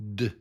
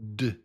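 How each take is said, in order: The two takes are said the same way.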